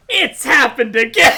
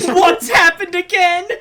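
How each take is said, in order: First: Reply "It's happened again" like a mock-grave verdict, laugh creeping in; hammed-up statement on "It's happened again"; answering statement tune. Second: "What's happened again?" as a mock-puzzled question, pitched up; lifted, hammed-up query on "What's happened again?"; questioning tune. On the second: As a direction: ask "What's happened again?" with exaggerated curiosity. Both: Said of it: "Makoto says the question".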